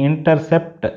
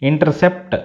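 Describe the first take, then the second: No difference in how they are said.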